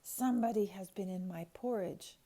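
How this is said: It is said in a deep, gruff bear voice.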